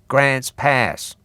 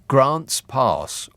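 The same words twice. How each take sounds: First: It is said in an American accent. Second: It is said in an English accent. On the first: The speaker calls it right. "you have to say it in an American accent" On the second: The speaker calls it wrong. "which sounds terrible in an English accent"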